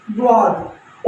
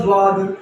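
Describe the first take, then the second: First: द्वाद opening on a d sound; Arabic-style d at the start of द्वाद; Arabic letter name. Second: ज्वाद opening on a z sound; Urdu-style z at the start of ज्वाद; Urdu letter name. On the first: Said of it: "जब हम अरबी पढ़ते हैं". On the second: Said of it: "और उर्दू पढ़ते हैं". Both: Shown as a demonstration.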